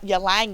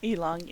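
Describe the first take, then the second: First: The word begins with a 'ya' sound. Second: The word begins with an 'ee' sound. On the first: The speaker calls it wrong. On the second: The speaker calls it right.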